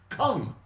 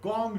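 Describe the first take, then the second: First: The word starts with a hard k sound. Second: The word starts with a soft g sound.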